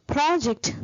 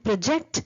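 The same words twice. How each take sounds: First: PROject, slow, with a high first syllable; stress on first syllable. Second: ProJECT, second syllable carrying the weight; quick "pro", then a firm JECT in "project"; stress on second syllable. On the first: Teacher recapping the noun for students, PROject stressed on the first syllable. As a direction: lean long on PRO in "project", drop "ject". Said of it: "where the word stress is word initially". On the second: Teacher recapping the verb for students, proJECT stressed on the second syllable. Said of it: "where the word stress is in the second syllable".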